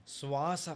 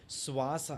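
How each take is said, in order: Both takes have the same delivery.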